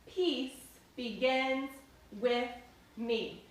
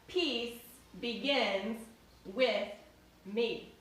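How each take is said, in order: First: It is spoken aloud in a full voice. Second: It is spoken aloud in a full voice.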